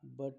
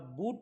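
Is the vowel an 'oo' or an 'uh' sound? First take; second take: uh; oo. First: The vowel is a short 'uh' sound. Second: The vowel is a long 'oo' sound. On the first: The speaker calls it right. "बट म्हणतात" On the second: The speaker calls it wrong. "बूट न म्हणता"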